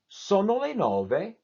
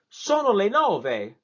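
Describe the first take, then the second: First: The pitch rises, falls, then ends high. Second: The pitch rises steadily upward. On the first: It is a question. "you go up, you go down, and then you end on a high note" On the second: It is an exclamation. "it has to go straight up ... my voice goes up"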